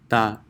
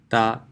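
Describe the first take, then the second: First: An Arabic t, with the tongue touching the teeth. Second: The same.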